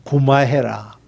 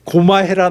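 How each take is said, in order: First: Low, soft Gyeongsang "고마해라" with the "고" said as "구"; 낮고 조용한 경상도 사투리로 "고마해라"; Gyeongsang dialect. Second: Firmer, fuller Gyeongsang "고마해라" at normal pitch; 또렷한 경상도 사투리로 "고마해라"; Gyeongsang dialect. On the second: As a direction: say "고마해라" plainly in Gyeongsang dialect, as a firm stop. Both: Retold or imitated. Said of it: "저 경상도식의 표현이 있어요".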